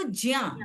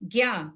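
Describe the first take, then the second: First: The syllable begins with a j sound plus ya. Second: The syllable begins with a g sound plus ya. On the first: This is the original form of the sound. The speaker calls it right. "वो जा और इया है, वो है वो ज्या" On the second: This is how most people commonly say it. The speaker calls it wrong. "लोगों ने जिंदगी में पढ़ा है"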